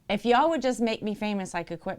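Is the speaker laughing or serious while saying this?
serious. It is said with a serious, straight face. The speaker calls it right. "I'm going to say it with a straight face"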